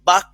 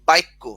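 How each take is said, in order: First: It has no extra vowel before the cluster. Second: An extra 'i' vowel comes before the cluster.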